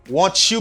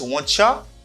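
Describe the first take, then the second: First: Both words are said fully and separately. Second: The words blend into one reduced form.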